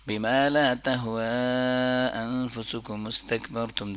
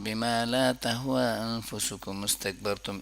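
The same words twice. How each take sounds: First: The long vowel is stretched to a medium length. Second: The long vowel is held only briefly, barely stretched. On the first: "दरमियाना तरीका" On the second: "ऐसे भी हो सकता है"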